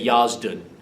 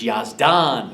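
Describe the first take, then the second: First: The name is said with an Americanized pronunciation. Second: The name is said with its native pronunciation. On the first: The speaker calls it wrong. "an American or somebody that didn't know might say Yazdun" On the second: The speaker calls it right. "but it's Yazdan"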